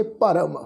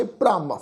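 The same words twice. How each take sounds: First: ਭਰਮ with a short vowel before a full r. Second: ਭ੍ਰਮ as one syllable, r joined straight onto the first consonant; half-r cluster. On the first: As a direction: separate the first consonant from the r in ਭਰਮ. (ਭਰਮ, ਪੂਰਾ ਰਾਰਾ ਬੋਲ ਕੇ) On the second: (ਭ੍ਰਮ, ਅੱਧਾ ਰਾਰਾ ਜੋੜ ਕੇ) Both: Shown as a demonstration. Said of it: "ਦੋਨਾਂ ਸ਼ਬਦਾਂ ਦੀ ਉਚਾਰਨ ਦੀ tone".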